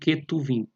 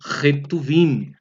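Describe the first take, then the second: First: The word starts with a hard k sound. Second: The word starts with a throaty rasping sound. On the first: The speaker calls it wrong. "As pessoas lerem Ketuvim" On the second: The speaker calls it right. "Sem o ponto é re. Parece muito a pronúncia com ret"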